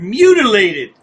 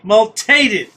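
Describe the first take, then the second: First: The word is said in full, mu-ti-lated. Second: The word is clipped to mul-tated. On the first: "All this time we've been pronouncing the word mutilated" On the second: "Now we find out it's multated"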